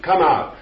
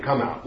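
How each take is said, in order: First: Higher, louder mocking command; preacher mocking a showy exorcist; mock exorcist shout. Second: Said in the usual way. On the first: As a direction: ham up a showy exorcist's order. Mocking exorcists questioning demons.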